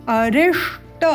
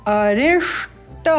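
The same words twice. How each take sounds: Both takes have the same delivery.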